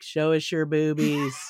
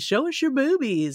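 First: It is said in a flat, deadpan voice. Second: It is said in a lively, expressive voice. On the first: The speaker seems emotionally detached. "they're not saying it quite that deadpan" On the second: The speaker seems eager and engaged. "it's not like, hey"

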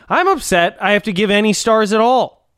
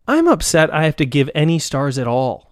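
First: It is read loudly, with exclamatory emphasis. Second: It is read in a calm, plain way.

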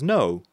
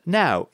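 First: The vowel sounds like 'oh'. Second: The vowel sounds like 'ow'. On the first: The speaker calls it wrong. "it's not pronounced as no" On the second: The speaker calls it right. "it's pronounced now"

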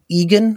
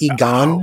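First: The stress is on the first syllable. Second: The stress is on the second syllable. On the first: The speaker calls it right. "with the emphasis on the first syllable" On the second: The speaker calls it wrong. "rather than Egon"

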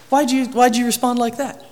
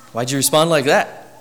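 First: The voice sounds warm and caring. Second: The voice sounds sharp and disapproving. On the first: The speaker is simply curious and cares. The speaker calls it right. "Did you hear the change in my tone of voice? It's a little more I care" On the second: The speaker disapproves of the answer. The speaker calls it wrong. "your tone suggested you didn't approve"

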